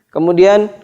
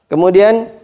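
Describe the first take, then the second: No difference in how they are said.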